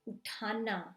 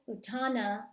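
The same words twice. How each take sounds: First: The middle consonant has a puff of air. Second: The middle consonant has no puff of air. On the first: The speaker calls it right. "I'm saying uthana. Do you hear me enunciating that H?" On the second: The speaker calls it wrong. "I'm not saying uthana"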